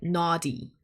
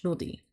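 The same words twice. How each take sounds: First: "naughty" with an open English AW vowel; "naughty" pronounced as in English; English pronunciation. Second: "Nodi" said the Dutch way, with a short, rounded first vowel; Dutch pronunciation. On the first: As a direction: say "naughty" as NAW-dee, the English way. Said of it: "in English, which kinda sounds like". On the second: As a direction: say "Nodi" as NUH-dee, as in Dutch. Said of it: "that's how you say it in Dutch". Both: Shown as a demonstration.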